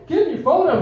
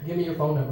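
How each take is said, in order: First: High, loud mock-frantic demand; brother's insistent echo. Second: Low, restrained security guard voice; guard's calm demand. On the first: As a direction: parrot the demand in a raised, urgent voice. Brother parrots guard's demand louder. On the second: Retold or imitated. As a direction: ask it low and matter-of-fact. Guard asks, brother then repeats it.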